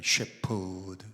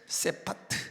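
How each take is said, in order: First: It is said as 'shyepeodeu', ending in 'deu'. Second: It is said as 'sepateu', ending in 'teu'.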